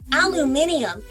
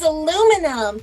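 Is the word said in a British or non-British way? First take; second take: British; non-British. First: The word is said in a British way. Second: The word is said in a non-British way.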